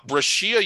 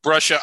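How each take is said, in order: First: "Brashia" said with an extra syllable, unlike two-syllable "BRESH-uh"; mispronounced name. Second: "Brescia" in two syllables, BRESH-uh, louder; corrected pronunciation. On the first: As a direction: say "Brashia" the mistaken way, as bruh-SHEE-uh. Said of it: "hope I'm not mispronouncing that". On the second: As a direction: repeat "Brescia" firmly as BRESH-uh. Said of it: "told me it's pronounced Brescia". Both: Real, not acted.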